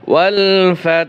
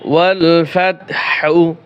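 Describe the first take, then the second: First: The word ends with a soft breathy h. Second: The word ends with a full 'hu' syllable. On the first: The reading stops at this word. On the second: The reading continues without stopping.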